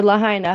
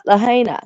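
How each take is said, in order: First: Lahaina said luh-HIGH-nuh. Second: Lahaina said luh-HAY-nuh. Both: Real, not acted. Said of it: "however the fuck you say it".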